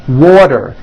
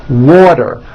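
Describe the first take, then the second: Both takes have the same delivery.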